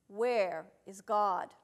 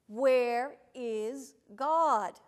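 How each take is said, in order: First: It is said sternly at moderate loudness. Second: It is said more forcefully and loudly.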